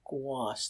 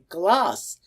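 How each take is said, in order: First: The word is said with no clear L sound. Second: The word is said with a clear L sound. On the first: This is how the nickname was said at home. "The L before the broad vowel" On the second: This is how the people over there said the nickname. "They were saying all saying gloss"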